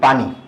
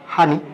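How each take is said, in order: First: The word begins with a p sound. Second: The word begins with an h sound. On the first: This is the Dhaka form. "আমরা ঢাকায় একটা শব্দ বলি পানি" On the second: This is the Noakhali regional form. "নোয়াখালীতে কি বলে হানি"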